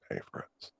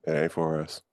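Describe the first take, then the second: First: Breathy unvoiced whisper. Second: Said in the usual way. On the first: Shown as a demonstration. Host repeating his line to friends as a whisper.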